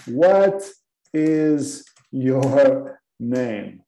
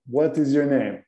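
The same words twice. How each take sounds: First: Very slow, drawn-out question; slow model question. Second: Said in the usual way. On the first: Shown as a demonstration. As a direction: stretch each word for learners. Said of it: "Por exemplo".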